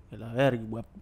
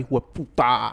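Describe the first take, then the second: First: Low, dropping hostile tone; menacing insult; other tone. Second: Hijo de puta with puta hit hard on the P; stress on the P. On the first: Retold or imitated. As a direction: mutter it as a real insult. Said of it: "Ya es otro tono". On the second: Shown as a demonstration. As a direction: punch the P of puta. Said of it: "Con acento en la P".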